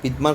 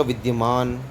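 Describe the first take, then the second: First: विद्यमान said as "vidmaan", without the y; विद्यमान with d straight into m; wrong pronunciation. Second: विद्यमान said as "vid-ya-maan"; विद्यमान with a full "dya"; correct pronunciation. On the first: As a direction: drop the y glide in विद्यमान. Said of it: "अशुद्ध पढ़ रहे हो". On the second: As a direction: sound the y after d in विद्यमान. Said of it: "आप देखो गलत क्या हुआ". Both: Shown as a demonstration.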